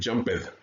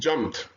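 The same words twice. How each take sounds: First: The ending is said as an extra syllable. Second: The ending is said as a T sound. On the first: The speaker calls it wrong. "Don't say jumped" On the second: The speaker calls it right. "like T"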